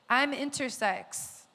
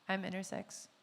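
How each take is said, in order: First: It is said loudly and proudly. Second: It is said very quietly, barely audible.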